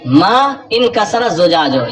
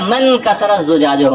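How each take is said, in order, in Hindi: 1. 'inkasara' से शुरू होने वाला स्वर अलग से बोला जाता है। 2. 'inkasara' से शुरू होने वाला स्वर हटा दिया जाता है और मिल जाता है।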